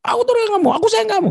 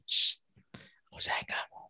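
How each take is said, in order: First: Mock shouted declaration of love; shouting. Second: Soft whispered sweet nothings; hushed lover's whisper. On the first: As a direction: bellow the love words absurdly. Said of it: "Nggak ada orang jatuh cinta ngomongnya". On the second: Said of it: "ngomongnya bisik-bisik". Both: Shown as a demonstration.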